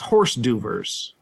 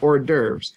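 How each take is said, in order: First: It is said letter by letter, like horse. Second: It has an American pronunciation with a silent s. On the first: The speaker calls it wrong. "What we don't say is horse d'oeuvres" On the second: The speaker calls it right. "But we say hors d'oeuvres"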